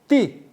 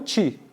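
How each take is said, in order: First: The consonant is a plain, hard t sound. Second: The consonant is softened toward a ch sound. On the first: The speaker calls it right. "ti e não ti" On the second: The speaker calls it wrong. "não ti"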